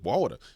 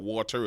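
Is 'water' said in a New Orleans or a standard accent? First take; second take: New Orleans; standard. First: The word is said in a New Orleans accent. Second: The word is said in a standard accent. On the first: The speaker calls it right. "like we say in New Orleans" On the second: The speaker calls it wrong. "It's not water"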